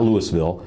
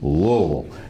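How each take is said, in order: First: The s sound in the middle is pronounced. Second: The s sound in the middle is dropped. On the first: The speaker calls it wrong. "not Louisville" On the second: The speaker calls it right. "You just you forget the S"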